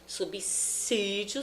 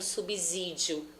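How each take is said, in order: First: The second s sounds like s. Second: The second s sounds like z. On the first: The speaker calls it right. "o som é de C" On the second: The speaker calls it wrong. "acharem que o som desse S é de Z"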